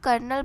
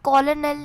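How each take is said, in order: First: It is said in two syllables, ker-nel. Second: It is said in three syllables, co-lo-nel. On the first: The speaker calls it right. "वैसे इसको कर्नल बोलते हैं" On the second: The speaker calls it wrong. "कॉलोनल नहीं बोलते"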